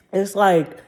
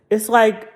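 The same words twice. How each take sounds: The two takes are said the same way.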